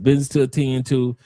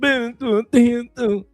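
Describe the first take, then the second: First: It is said in the speaker's ordinary voice. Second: It is said in an imitated, put-on voice.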